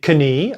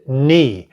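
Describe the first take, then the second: First: The word starts with a pronounced K sound. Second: The word starts with no K sound. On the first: The speaker calls it wrong. "I didn't say knee" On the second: The speaker calls it right. "I said knee. The K is silent"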